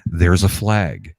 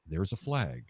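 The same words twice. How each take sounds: First: Slow, deadpan announcer drawl; boring announcer. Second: Soft, low, deadpan announcer call; boring announcer. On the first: Mocking the boring stadium announcer, slow and flat. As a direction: flatly call out the flag, slowly. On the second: Mocking the dull announcer on TV, soft and flat. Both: Retold or imitated. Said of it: "the announcer goes".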